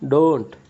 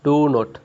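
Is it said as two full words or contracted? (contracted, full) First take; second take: contracted; full. First: The words are joined into one short syllable. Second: Both words are said in full, separately.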